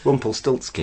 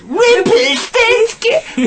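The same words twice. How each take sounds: First: The word is said in a plain, ordinary way. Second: The word is said in a big, exaggerated way. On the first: This is how it was probably really said. "he probably just says" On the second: This is how the other person imagines it. "in your head, he goes"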